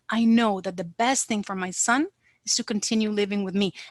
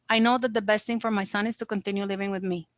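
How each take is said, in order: First: It is said in a pleading, emotional way. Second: It is said flatly, without pleading. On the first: The speaker calls it right. "The mother would be pleading" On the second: The speaker calls it wrong. "the mother will definitely not be saying"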